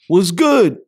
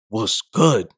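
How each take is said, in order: First: It is said as a casual friendly greeting. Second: It is said in a hostile, challenging tone.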